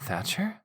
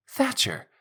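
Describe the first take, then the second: First: Said in the usual way. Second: High, loud alarmed cry; shouting. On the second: Acted. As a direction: shout his name in alarm. Alarmed protest at his words.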